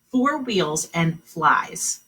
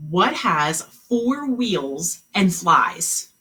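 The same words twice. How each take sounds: First: Slow repeat. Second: Slow, drawn-out question; slow riddle reading. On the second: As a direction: read the riddle slowly, word by word. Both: Shown as a demonstration. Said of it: "Here was the riddle".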